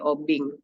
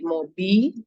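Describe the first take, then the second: First: The word ends with an ng sound. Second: The word ends without any final consonant. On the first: "le itu diganti dengan eng, ya, menjadi obing" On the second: "Leh itu kemudian tidak ada, hanya menjadi mobi"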